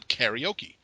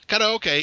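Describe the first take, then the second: First: It is said with the English pronunciation. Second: It is said with the Japanese pronunciation. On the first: "everybody in my hometown would say karaoke" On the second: "karaoke is how it's pronounced in Japanese"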